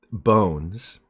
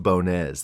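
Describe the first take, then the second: First: Said in the usual way. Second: "Bonez" with the accented E sounded as a second syllable; accented final E. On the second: Shown as a demonstration. Host revealing his surname's real pronunciation, "Bonez" with sounded E. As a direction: say "Bonez" in two syllables, French-Portuguese style. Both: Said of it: "It's actually pronounced Bonez".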